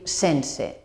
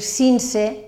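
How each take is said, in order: First: The first vowel is pronounced e. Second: The first vowel is pronounced i. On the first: The speaker calls it right. "sinó hem de dir sense" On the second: The speaker calls it wrong. "no hem de dir cinse"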